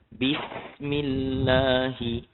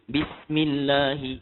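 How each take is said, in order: First: It is recited slowly, with long letter durations. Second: It is recited quickly, with short letter durations. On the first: "kalau kita baca perlahan" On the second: "Laju lagi"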